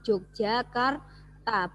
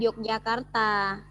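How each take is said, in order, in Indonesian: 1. Kata itu dimulai dengan bunyi J. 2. Kata itu dimulai dengan bunyi Y. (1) "Bacanya itu Yogyakarta" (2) "bukan Yogyakarta"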